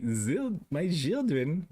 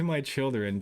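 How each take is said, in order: First: Put-on German accent, slightly higher. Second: Said in the usual way. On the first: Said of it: "like German".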